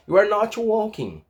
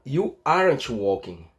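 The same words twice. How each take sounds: First: ARE NOT as two separate words, slow; full form. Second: AREN'T as one word, NOT shrunk to n't, slow; contracted form. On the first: Teacher gives learners the long negative, uncontracted ARE NOT. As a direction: say NOT whole after ARE. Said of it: "Em vez de falar o are not". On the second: Teacher shows how the negative changes, contracted AREN'T. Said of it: "Vai ficar you aren't walking". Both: Shown as a demonstration.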